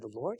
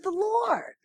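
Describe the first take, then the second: First: Very soft, low, questioning lift; tiny unsure reply, rising at the end; tentative answer. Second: Soft but very high, falling firmly; high singsong certainty, dropping at the end; confirming echo. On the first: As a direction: answer meekly under your breath. His tentative answer, second time. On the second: Pastor's sure echo, second time. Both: Retold or imitated.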